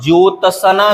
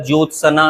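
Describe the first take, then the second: First: ज्योत्सना split as jyo-ta-sa-naa; wrong pronunciation. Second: ज्योत्सना with joined ts, jyot-sna; correct pronunciation. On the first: Teacher showing the mistake, ज्योत्सना said as jyo-ta-sa-naa. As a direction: add a vowel after t in ज्योत्सना. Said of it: "गलत है". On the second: Teacher correcting it, ज्योत्सना said as jyot-sanaa. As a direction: join t and s in ज्योत्सना. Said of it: "सही है". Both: Shown as a demonstration.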